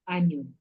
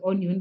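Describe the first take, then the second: First: "onion" with the first vowel said as a short A-like sound, "an-yun"; correct vowel. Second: "onion" with the first vowel said as O, "o-nyon"; wrong vowel. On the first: Teacher models the right way, "onion" with short A-like vowel. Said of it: "but we pronounce it as onion". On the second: Teacher shows class the wrong way, "onion" with O. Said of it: "we do not pronounce it as onion". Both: Shown as a demonstration.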